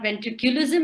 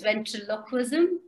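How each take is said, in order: First: The middle syllable sounds like 'cu'. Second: The middle syllable sounds like 'lo'. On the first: The speaker calls it wrong. "you did not pronounce the word properly" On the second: The speaker calls it right. "it's ventriloquism"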